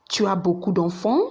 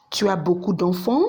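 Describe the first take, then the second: No difference in how they are said.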